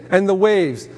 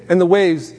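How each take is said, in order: Both takes have the same delivery.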